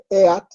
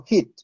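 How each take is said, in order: First: "eat" read as spelt, e-at, each vowel sounded; literal Spanish reading. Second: "hit" with one i sound after a breathed h; English reading. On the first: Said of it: "no lo leo". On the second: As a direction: say "hit" as English reads heat. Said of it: "sino hit". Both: Shown as a demonstration.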